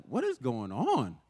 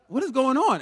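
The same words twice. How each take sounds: First: Drawn out, slow and baffled; slow puzzled wondering. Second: Higher and louder, alarmed; alarmed outcry. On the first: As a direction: muse it slowly to yourself, puzzled. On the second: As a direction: burst out in alarm at the mirror. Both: Retold or imitated. Bewildered at the mirror.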